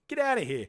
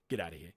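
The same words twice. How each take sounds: First: High-pitched, exclaimed scoff; high, emphatic brush-off; raised incredulous dismissal. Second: Low, quiet scoff; deep, softened brush-off; low dismissal. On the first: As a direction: throw it out high, in disbelief. Repeats the scoff, raised for effect. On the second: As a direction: dismiss it under your voice, pitched well down. Scoffing at the rhetorical question. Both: Real, not acted.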